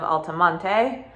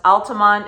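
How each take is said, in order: First: The name ends with an extra final vowel sound. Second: The name ends on the t, with no final vowel. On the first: This is how newcomers say it. "instead of Altamonte" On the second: This is how locals say it. "It is locally pronounced Altamont"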